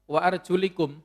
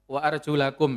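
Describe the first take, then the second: First: The vowel after arjul is an i sound. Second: The vowel after arjul is an a sound. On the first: The feet are joined to the wiped head. The speaker calls it wrong. "Atofnya memang lebih dekat kepada ruusikum ya, kasroh" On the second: The feet are joined to the washed hands and face. The speaker calls it right. "Lamnya itu wa arjulakum itu difathahkan"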